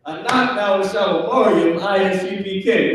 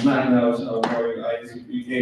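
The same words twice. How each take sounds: First: Higher-pitched acted kids' recitation; kids answering back. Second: Lower, softer, quick recitation; kids' corrected answer. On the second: Acted. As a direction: act kids saying it meekly, low and fast. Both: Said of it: "You better say it like that".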